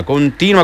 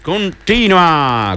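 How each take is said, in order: First: Said in the usual way. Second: "continua" stretched very slowly; slow, lingering "continua"; drawn-out continua. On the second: Retold or imitated. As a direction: drag out "continua" like Flo does. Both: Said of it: "come dice Flo".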